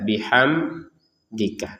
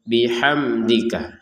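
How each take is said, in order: First: There is a breath break inside the word. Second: The word is said without any break. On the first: The speaker calls it wrong. "atau dibaca dengan jeda" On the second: The speaker calls it right. "kita baca dengan jelas"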